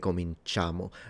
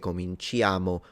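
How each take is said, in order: First: No separate 'ee' vowel follows the 'ch' sound. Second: A separate 'ee' vowel follows the 'ch' sound. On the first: The speaker calls it right. "the I is not pronounced" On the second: The speaker calls it wrong. "we don't say cominciamo"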